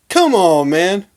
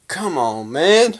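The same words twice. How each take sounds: First: High, loud "Come on"; heated exasperation. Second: Exasperated appeal. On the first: Fan scolding a jacket burner, louder exasperation. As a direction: burst out louder, fed up. Repeats the appeal, more heated. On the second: Fan chiding a jacket burner, exasperated. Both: Real, not acted.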